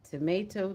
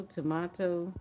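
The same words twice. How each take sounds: First: "Tomato" as to-MAY-to; long A, to-MAY-to; "Tomato" with the American A. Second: "tomato" as to-MAH-to; broad A, to-MAH-to; "tomato" with the British A. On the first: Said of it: "You say tomato". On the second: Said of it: "I say tomato". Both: Shown as a demonstration.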